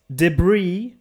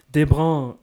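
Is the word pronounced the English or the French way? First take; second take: English; French. First: The word is pronounced the English way. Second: The word is pronounced the French way. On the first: "Also ich spreche jetzt einfach mal Englisch aus" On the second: "in Französisch"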